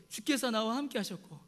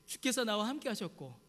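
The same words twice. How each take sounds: The two takes are said the same way.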